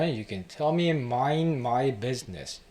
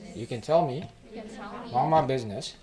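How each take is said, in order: First: It is said clearly with each word distinct. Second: It is said in a mimicked, slurred accent. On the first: "정확하게 얘기하면" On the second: "이분의 액센트를 제가 조금 따라해봤는데"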